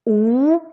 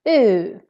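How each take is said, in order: First: The vowel has fully rounded, circled lips. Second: The vowel has loosely, slightly rounded lips.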